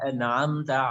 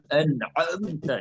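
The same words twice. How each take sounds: First: The ain sound flows lightly without extra pressure. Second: The ain sound is pressed hard and exaggerated. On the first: The speaker calls it right. "saliqah itu artinya uh, mengalir begitu saja" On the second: The speaker calls it wrong. "menekankan beberapa huruf ... itu kada bagus"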